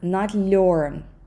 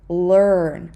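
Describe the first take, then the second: First: The L is soft and palatalized. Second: The L is hard, not palatalized. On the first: The speaker calls it wrong. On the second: The speaker calls it right.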